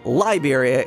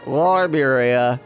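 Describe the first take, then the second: First: The L is crisp, made with the tongue tip. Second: The L is lazy, pulled back in the throat. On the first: "really enunciating it with the tip of the tongue" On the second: "putting the L in the back of your throat"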